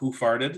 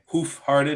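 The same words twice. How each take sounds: First: The phrase is said quickly, run together. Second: The phrase is said at a normal pace.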